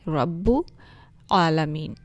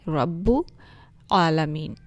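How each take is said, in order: First: The two words are said separately, hamza sounded. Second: The same.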